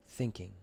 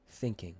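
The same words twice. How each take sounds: The two takes are said the same way.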